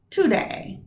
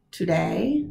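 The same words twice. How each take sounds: First: "today" with DAY stressed, falling. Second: "Today" with TO stressed, rising. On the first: Teacher giving the right stress on "today". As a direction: lift and land on DAY in "today". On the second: Teacher contrasting the wrong stress on "Today". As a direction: put the weight on TO in "Today". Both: Shown as a demonstration. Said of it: "is it today or today".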